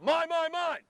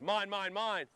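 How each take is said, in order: First: The call is said even louder. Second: The call is said at ordinary loudness. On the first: The other fielder overrides the first call. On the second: The first fielder claims the ball.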